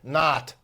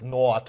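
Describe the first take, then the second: First: The vowel sounds like an open 'ah'. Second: The vowel sounds like a rounded 'o'. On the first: "In American English, O becomes A" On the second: "instead of"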